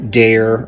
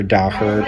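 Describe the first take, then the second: First: "Daher" said as DAY-er; first pronunciation. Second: "Daher" said as DAH-her; alternative pronunciation. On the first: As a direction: say "Daher" like "dare", with an AY sound and silent h. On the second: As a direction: say "Daher" with an open AH and a sounded h. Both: Shown as a demonstration. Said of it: "depending on how you pronounce it".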